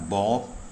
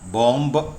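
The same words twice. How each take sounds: First: The word ends on the m, b silent. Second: A b sound is heard after the m. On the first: The speaker calls it right. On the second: The speaker calls it wrong.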